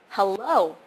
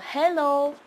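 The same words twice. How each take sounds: First: The stress is on the second syllable. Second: The stress is on the first syllable. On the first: The speaker calls it right. "It's supposed to be hello" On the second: The speaker calls it wrong. "I put the stress on the first uh, syllable. So hello, but that's not how you say it"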